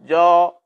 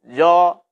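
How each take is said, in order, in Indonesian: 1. Suku katanya berat, dengan vokal yang gelap dan tebal. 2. Suku katanya berat, dengan vokal yang gelap dan tebal.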